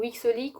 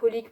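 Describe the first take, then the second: First: One letter x sound comes before Holic. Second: Nothing is said before Holic. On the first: Some people say it this way. "ou X Holic" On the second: This is the speaker's own way of saying it. "moi je prononce ça Holic"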